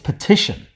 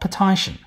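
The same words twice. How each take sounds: First: The stressed vowel is short. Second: The stressed vowel is long. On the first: This is the actual modern pronunciation. The speaker calls it right. "It's petition" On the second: This is the expected pronunciation if lengthening had happened. The speaker calls it wrong. "not petition"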